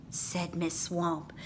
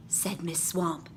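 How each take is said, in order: Both takes have the same delivery.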